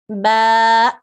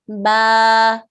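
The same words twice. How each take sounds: The two takes are said the same way.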